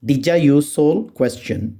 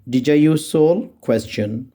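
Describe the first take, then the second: No difference in how they are said.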